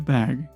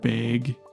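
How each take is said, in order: First: The vowel is said plainly without a twang. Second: The vowel is said with a regional twang. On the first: It is the speaker's own accent. The speaker calls it right. "I get a bag" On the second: It imitates another regional accent. The speaker calls it wrong. "a twang"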